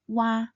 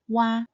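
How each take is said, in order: Both takes have the same delivery.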